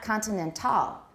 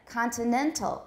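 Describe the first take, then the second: First: The stress falls on the last syllable. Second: The stress falls on the second-to-last syllable. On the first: The speaker calls it wrong. "It's not continental. That sounds French" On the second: The speaker calls it right. "But continental, continental, it's in the middle of this, ... It's the penultimate syllable"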